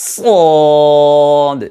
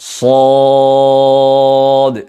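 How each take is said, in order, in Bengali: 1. অক্ষরটি পাতলা, হালকা ধ্বনিতে উচ্চারিত হয়। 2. অক্ষরটি ভারী, পূর্ণ ধ্বনিতে উচ্চারিত হয়। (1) "কেমন জানি পাতলার গন্ধ পাওয়া যাচ্ছে" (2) "মোটা করে আদায় করবেন"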